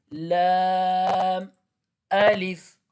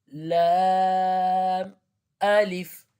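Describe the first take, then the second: No difference in how they are said.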